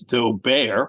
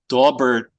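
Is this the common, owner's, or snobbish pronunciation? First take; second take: snobbish; common. First: It uses a snobbish pronunciation of the name. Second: It uses the common mispronunciation of the name. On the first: "or even by some snobs as Daubert" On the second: "is frequently mispronounced as Daubert"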